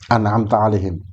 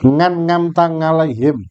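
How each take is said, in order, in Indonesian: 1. Kedua kata itu dimulai dengan vokal yang jelas. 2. Kedua kata itu dimulai dengan bunyi 'ng'. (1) "belajar Fatihah dengan huruf yang benar" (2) "nggak bisa bilang an'amta. Bisanya ngapa? Ngan ngamta"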